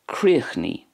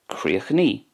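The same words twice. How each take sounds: First: It ends in a long 'ee' vowel. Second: It ends in a long 'ee' vowel.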